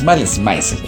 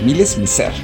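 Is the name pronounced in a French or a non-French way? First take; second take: non-French; French. First: The name is pronounced in a non-French way. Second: The name is pronounced in a French way. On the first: The speaker calls it wrong. "no es Malice Mizer" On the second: The speaker calls it right. "es Malice Mizer ... como la pronunciación en francés"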